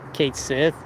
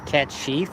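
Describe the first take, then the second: First: It is said like 'Kate Sith'. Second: It is said like 'cat sheath'. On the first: The speaker calls it wrong. "Final Fantasy was under scrutiny for for pronouncing it Kate Sith" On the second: The speaker calls it right. "the actual pronunciation is cat the cat sheath or something like that"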